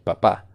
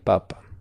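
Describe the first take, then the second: First: The stress is on the last syllable. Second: The stress is on the first syllable. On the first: It means a father. "si está en la última sílaba, es el padre de familia" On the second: It means the Pope or a potato. "Si está en la primera sílaba el acento, como dije, es el tubérculo o el papa de la Iglesia Católica"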